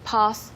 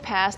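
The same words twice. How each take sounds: First: The word is said with a British vowel. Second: The word is said with an American vowel. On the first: "they say pass" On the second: "we say pass"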